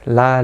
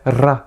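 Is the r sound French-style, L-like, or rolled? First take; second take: L-like; rolled. First: The r is a light tap like l. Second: The r is rolled with the tongue tip. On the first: The speaker calls it right. "On va vraiment rester plus proche d'un L" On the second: The speaker calls it wrong. "On va pas non plus rouler le R"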